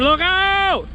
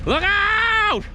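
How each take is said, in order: First: High yelled warning to the crew; retold warning yell. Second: Very high, TV-logger warning holler; Axemen-style yell. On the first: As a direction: shout the warning as it happened. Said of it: "I yelled, I said". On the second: Retold or imitated. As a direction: holler it like a reality-show logger. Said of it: "Just like Axemen".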